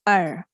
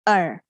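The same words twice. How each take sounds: The two takes are said the same way.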